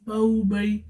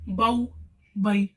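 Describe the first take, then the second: First: The syllables are said softly, short and smooth. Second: The syllables are cut off with an abrupt jerk. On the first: The speaker calls it right. "नरमी के साथ पढ़ना है और मारूफ पढ़ना है" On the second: The speaker calls it wrong. "कैसे झटका नहीं देना, जैसे बाऊ बई ... इस तरीके से नहीं पढ़ना"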